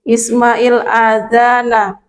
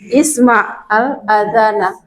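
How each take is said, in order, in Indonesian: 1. Kedua kata itu menyambung dengan vokal i penghubung. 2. Kedua kata itu dipisah dengan jeda di antaranya. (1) "Ini kalau mau kita sambung dengan yang alif lam" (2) "boleh kita baca putus"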